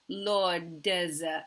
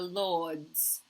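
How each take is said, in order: First: The ending is split into an extra syllable. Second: The final consonants blend smoothly into one syllable. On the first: The speaker calls it wrong. "it's sounding like this" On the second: The speaker calls it right. "This is a very difficult consonant cluster"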